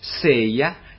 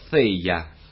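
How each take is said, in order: First: It begins with an s sound. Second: It begins with a tongue-between-teeth th sound. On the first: This is a softened substitute form. "«s»" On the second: This is the rustic local form.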